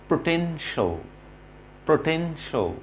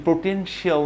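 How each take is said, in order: First: "পটেনশিয়াল" ending in a short "sho"; correct pronunciation. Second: "পটেনশিয়াল" with a full "shi-aal" ending; common mispronunciation. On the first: Teacher models the word for learners, correct pronunciation. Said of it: "আমাদেরকে বলতে হবে". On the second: Teacher shows what not to say, mispronunciation. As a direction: say "পটেনশিয়াল" as "poten-shee-AL". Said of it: "না বলে". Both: Shown as a demonstration.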